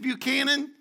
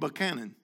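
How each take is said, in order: First: It is pronounced the Puerto Rican way. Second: It is pronounced the local Virginian way. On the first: The speaker calls it wrong. "the way we pronounce it in Puerto Rico is Buchanan" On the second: The speaker calls it right. "they looked at me and said, you mean Buchanan?"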